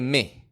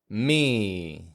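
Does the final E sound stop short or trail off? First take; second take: stops short; trails off. First: The final vowel stops short abruptly. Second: The final vowel trails off gradually. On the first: The speaker calls it wrong. "If you don't, then the word won't be clear" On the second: The speaker calls it right. "you've got to have your voice trailing off on that E"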